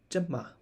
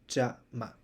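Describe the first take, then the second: First: The first syllable is short and reduced. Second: Both syllables have the same length. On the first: The speaker calls it right. "the first syllable is shorter, so it's pronounced as jama" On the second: The speaker calls it wrong. "not jama"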